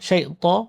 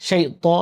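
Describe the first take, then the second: The two takes are said the same way.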